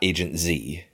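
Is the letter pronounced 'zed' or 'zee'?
zee. The letter is pronounced as zee. "not Agent Z"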